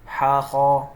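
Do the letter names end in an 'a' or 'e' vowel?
a. The letter names end in an 'a' vowel. This is the Arabic way of saying the letters. The speaker calls it right. "इस तरह से हमें पढ़ना है"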